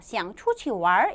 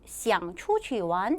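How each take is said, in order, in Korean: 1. 마지막 단어는 r 소리가 붙어서 끝나요. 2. 마지막 단어에는 r 소리가 안 붙어요.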